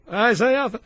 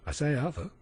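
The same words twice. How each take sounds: First: Louder, higher call for attention; insistent call. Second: Softer, tentative call for attention; restrained call. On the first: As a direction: raise your voice to make Arthur hear. Last, insistent call to Arthur. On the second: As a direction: try to get Arthur's attention without raising your voice. First try at getting Arthur's attention. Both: Pretend.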